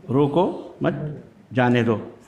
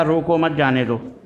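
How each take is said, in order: First: "रोको", "मत", "जाने दो" set apart with pauses; word-by-word reading. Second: Said in the usual way. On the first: Retold or imitated. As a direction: slowly spell out "रोको ... मत ... जाने दो" in a lower voice. Note repeated word by word.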